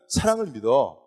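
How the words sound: It is said as a warm, positive statement. Love is great and worth believing in. "좀 긍정적인 얘기는"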